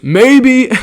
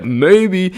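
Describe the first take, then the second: First: Much higher, louder, drawn-out taunt; friend's loud cocky comeback; cocky dare. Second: A touch higher, slightly louder taunt; retelling the cocky answer more lightly; milder cocky dare. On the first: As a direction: toss it back like a dare. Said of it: "Evan turns around and goes". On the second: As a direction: repeat the dare, less pushed. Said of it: "Straight up". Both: Retold or imitated.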